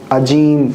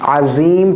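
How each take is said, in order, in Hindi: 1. बीच का व्यंजन j ध्वनि है। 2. बीच का व्यंजन z ध्वनि है। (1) "ये गलत है" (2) "अज़ीम पढ़ेंगे"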